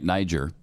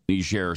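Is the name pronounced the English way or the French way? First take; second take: English; French. First: The name is pronounced the English way. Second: The name is pronounced the French way. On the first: The older familiar way of saying the name. "I grew up my entire life calling it Niger" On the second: The newer way of saying the name. "we're going with the French pronunciation on that now"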